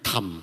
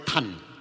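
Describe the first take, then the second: First: The word ends with an m sound. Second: The word ends with an n sound. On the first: This is the regional dialect form. "Kalau bahasa daerahnya tam. Jadi M belakangnya" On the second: This is the Mandarin form. "Kalau Mandarin. ... Kalau bahasa Mandarin pakai N"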